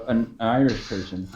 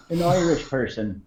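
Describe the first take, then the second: First: Said in the usual way. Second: Put-on an American's take on an Irish accent; mock Irish accent. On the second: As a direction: say it in an imitation Irish brogue. Repeats words as mock Irish impersonation.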